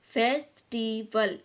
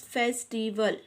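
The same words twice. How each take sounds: First: फेस्टिवल slowly in three beats, फेस, टी, वल; split into syllables. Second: Said in the usual way. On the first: Shown as a demonstration. Teacher counting out three syllables for children, फेस्टिवल said syllable by syllable. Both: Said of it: "ये three syllable word है".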